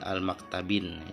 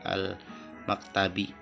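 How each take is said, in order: First: The word ends with an added n sound. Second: The word ends on a plain vowel, no n. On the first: The speaker calls it wrong. "tidak boleh al maktabin" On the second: The speaker calls it right. "Jadi al maktabi"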